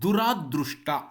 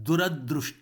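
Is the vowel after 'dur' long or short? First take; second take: long; short. First: The vowel after 'dur' is long. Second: The vowel after 'dur' is short. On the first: The speaker calls it wrong. "ದುರಾದೃಷ್ಟ ಎನ್ನುವುದು ತಪ್ಪು ಪ್ರಯೋಗ" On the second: The speaker calls it right. "ದುರದೃಷ್ಟ ಆಗಬೇಕಷ್ಟೆ"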